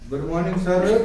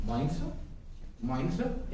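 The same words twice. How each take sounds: First: Louder "good morning सर" with full r in "सर"; full greeting. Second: Quiet, mumbled "morning सर"; soft polite greeting. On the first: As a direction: greet clearly and fully. (ज़ोर से पूरा "good morning सर") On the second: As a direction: greet softly like a visitor. (धीमे से "morning सर") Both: Shown as a demonstration. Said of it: "एक तो इस तरह बोले".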